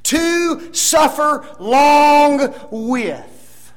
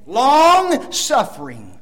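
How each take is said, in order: First: Very slow, each word spaced, higher and louder; спокойно растянуть каждое слово; slow emphatic phrasing. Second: Slow, "Long" stretched; слово "Long" медленно, с нажимом; stress on long. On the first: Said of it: "Just flip the two words". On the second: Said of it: "the word is a compound word". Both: Shown as a demonstration.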